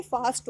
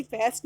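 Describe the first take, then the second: First: "फास्ट" with an open aa vowel; correct long aa. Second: "फेस्ट" with an e vowel; wrong vowel. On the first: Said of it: "अब इसमें फास्ट होगा". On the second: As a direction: mispronounce fast as "फेस्ट". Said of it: "फेस्ट नहीं होगा". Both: Shown as a demonstration.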